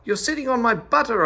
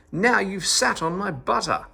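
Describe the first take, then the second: First: Much higher, louder shout on on; louder yell. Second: Higher angry yell on Now. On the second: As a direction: scold him with a cry on Now. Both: A narrator's reading. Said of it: "yelled at him all the more".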